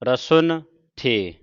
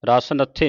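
First: The n sound ends the first word. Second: The n sound begins the second word. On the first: The speaker calls it right. "ਉਚਾਰਨ ਹੈ ਰਸੁਨ ਥੇ" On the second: The speaker calls it wrong. "ਰਸ ਨੱਥੇ ਨਹੀਂ ਉਚਾਰਨ ਕਰਨਾ"

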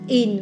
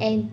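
First: The vowel sounds like 'in'. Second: The vowel sounds like 'en'. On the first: The speaker calls it right. "In, right?" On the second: The speaker calls it wrong. "Not en"

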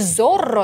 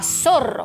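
First: The word begins with a buzzing Z sound. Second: The word begins with a hissing S sound. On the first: The speaker calls it wrong. "не «Зорро» надо произносить правильно" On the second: The speaker calls it right. "а «Сорро»"

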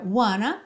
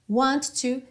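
First: The words are blended into one reduced word. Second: Both words are said fully and separately.

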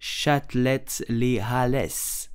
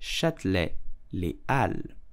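First: The H and final S of Halles are sounded. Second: The H and final S of Halles are silent. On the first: The speaker calls it wrong. "Do not pronounce Châtelet-Les Halles. It's totally wrong" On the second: The speaker calls it right. "the H is totally silent and the S of Halles is also silent"

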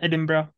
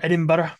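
First: The name is said in a casual everyday way. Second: The name is said in the careful local way. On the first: The speaker calls it wrong. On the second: The speaker calls it right.

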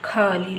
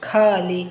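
Both takes have the same delivery.

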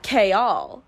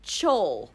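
First: The name begins with a 'k' sound. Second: The name begins with a 'ch' sound. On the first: This is the form the reader never thought of. "Not Kaol. That was nowhere in my brain" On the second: This is how the reader said it in her head.

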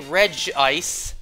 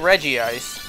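First: The name begins with one syllable, 'Reg'. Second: The name begins with two syllables, 'Reggie'. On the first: "you're not wrong if you say Reg Ice" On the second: "So I say Reggie Ice"

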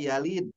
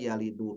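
First: The word ends on a bare consonant. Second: The word ends with an added vowel. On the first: The speaker calls it right. "Harusnya Yalid" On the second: The speaker calls it wrong. "huruf sukun, dibaca dengan harokat"

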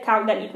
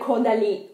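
First: The name is pronounced the Italian way. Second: The name is pronounced the French way. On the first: "quando sto parlando in italiano mi viene a dire Caudalie" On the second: "mi sento strana a dire Caudalie"

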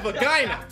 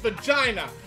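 First: The g is said as a hard g sound. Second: The g is said as a j sound. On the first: The speaker calls it wrong. "there ain't no such thing as a vagina" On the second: The speaker calls it right. "It's vagina, and therefore it's jif"

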